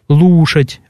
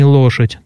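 First: The first vowel sounds closer, like u. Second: The first vowel sounds like a standard o. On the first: This is the local dialect pronunciation. "Там другие гласные «о»" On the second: This is the standard literary pronunciation. "а не лошадь"

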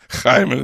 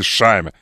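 First: The name is said the non-Portuguese way. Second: The name is said the Portuguese way.

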